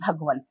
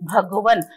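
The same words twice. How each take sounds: First: The word ends on a bare final consonant. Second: The word ends with a light added vowel. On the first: "maximum शब्दों में एक हलंत पाया जाता है" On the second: "न के साथ में अ को जोड़ देते हैं"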